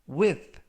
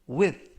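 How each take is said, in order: The two takes are said the same way.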